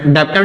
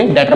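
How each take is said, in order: First: डेप्टर, wrongly said with the b sounded; wrong pronunciation with b. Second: डेटर said with the b silent, like debtor; correct pronunciation, silent b. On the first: (डेप्टर में ग़लती से बी बोलना) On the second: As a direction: drop the b and say डेटर. (डेटर, बी silent रखकर) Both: Shown as a demonstration. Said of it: "इसमें बी silent होता है".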